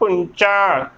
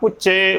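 First: It has a nasal sound and ends in 'a'. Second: It has no nasal sound and ends in 'e'. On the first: The speaker calls it right. "ਪੁੰਚਾ ਉਚਾਰਨ ਕਰਨਾ ਹੈ" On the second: The speaker calls it wrong. "ਬਿਨਾਂ ਟਿੱਪੀ ਤੋਂ ਵੀ ਉਚਾਰਨ ਗਲਤ ਹੈ"

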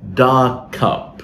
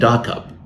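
First: There is a short delay between the two words. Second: The two words run together with no delay. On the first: The speaker calls it right. "the right way of saying this one is to say dark cup. There has to be a delay" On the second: The speaker calls it wrong. "You can't say dark cup, because dark cup does not sound like this phrase"

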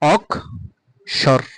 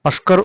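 First: The k sound comes before the s. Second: The s sound comes before the k. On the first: The speaker calls it right. "প্রথমে ক আসবে তারপর স আসবে" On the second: The speaker calls it wrong. "অস্কর উচ্চারণটা ভুল"

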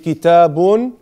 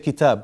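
First: The word ends with the final -un. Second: The word ends without the final -un. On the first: The full written ending is shown. "you say kitabun with the tanween" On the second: The speaker stops at the end of a sentence. "if you stop at the end of the sentence, you say kitab"

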